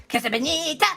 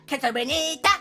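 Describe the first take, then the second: The two takes are said the same way.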